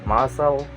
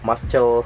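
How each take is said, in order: First: The c in the middle is silent. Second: The c in the middle is pronounced. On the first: The speaker calls it right. "it can be silent before the letter of S" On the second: The speaker calls it wrong. "You can't just read like muscle"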